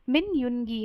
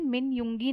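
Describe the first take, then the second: First: The n and g are split, like 'Yoon-gi'. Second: The ng sound merges, like 'Yoong-i'. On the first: The speaker calls it right. "मिन युनगी है" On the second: The speaker calls it wrong. "जबकि मिन युंगी नहीं है"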